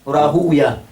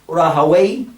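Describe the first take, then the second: First: The name ends with a 'wiya' sound. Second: The name ends with a 'way' sound. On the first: This form is preferred by hadith scholars. "Is used by the ulama of hadith" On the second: This form is preferred by language scholars. "Rahaway is used by the ulama of Lugha"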